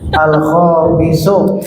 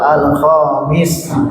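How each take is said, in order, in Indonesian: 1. Kata ini berakhir dengan vokal u. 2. Kata ini berakhir dengan huruf s, tanpa vokal. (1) "di kelas kita baca akhiran ya" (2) "Kalau mereka betul al-khomis"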